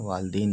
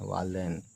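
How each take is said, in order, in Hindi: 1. दूसरे अक्षर में 'ee' स्वर है। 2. दूसरे अक्षर में 'ai' स्वर है। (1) "वालदीन नहीं पढ़ते हैं" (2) "वालदैन पढ़ते हैं"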